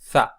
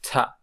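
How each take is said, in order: First: It starts with a TH sound like English. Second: It starts with a T plus a puff of air. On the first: This is the conventional modern pronunciation. "much more like the English T H" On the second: This is the original ancient pronunciation. "the original pronunciation of theta was like a T followed by aspiration"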